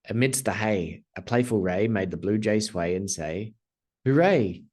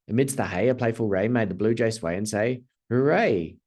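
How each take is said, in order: First: It is said at a normal, steady pace. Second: It is said at a quick pace.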